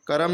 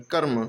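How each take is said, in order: First: कर्म broken into two syllables, ka-ram; कर्म as ka-RAM, the r fully voiced with its vowel; wrong split reading. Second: कर्म as one syllable, "karm"; कर्म with a short half r, no vowel between r and m; quick half r. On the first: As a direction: say कर्म with an extra vowel after the r, "karam". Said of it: "कर्म नहीं पढ़ेंगे". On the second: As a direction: run the r of कर्म straight into the m. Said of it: "जल्दी से आधा रा के टाइप का पढ़ेंगे". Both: Shown as a demonstration.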